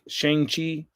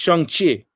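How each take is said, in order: First: The name is said with anglicized English sounds. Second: The name is said with Chinese-style sounds. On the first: "I've gotten used to saying it like Shang-Chi" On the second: "if I'm trying to speak Chinese, then I'm going to try to s- say like Shang-Chi"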